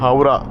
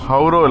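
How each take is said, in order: First: The word ends with an 'a' vowel. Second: The word ends with an 'o' vowel. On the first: The speaker calls it right. "அது ஹவுரா" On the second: The speaker calls it wrong. "ஹவுரோ இல்லை"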